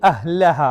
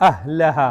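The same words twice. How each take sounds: The two takes are said the same way.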